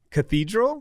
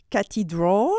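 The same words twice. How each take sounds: First: Cathedral stressed on THEE, questioning rise; English cathedral. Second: Cathedral in even syllables, "ka-tee-dral"; French-style cathedral. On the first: Checking what the learner meant, English-stressed cathedral. Native speaker repeats the word correctly. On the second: Showing a coach the misplaced emphasis, French-stressed cathedral. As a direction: say cathedral with a French T and weight on the end. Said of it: "Because if I say". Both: Shown as a demonstration.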